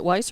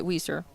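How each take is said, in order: First: WEISER said as "WHY-ser"; Weiser with a long i. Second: WEISER said as "WEE-ser". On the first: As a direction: say Weiser with first syllable rhyming with "eye". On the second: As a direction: say Weiser with first syllable rhyming with "see". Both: Shown as a demonstration. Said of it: "Is it Weiser or is it Weiser".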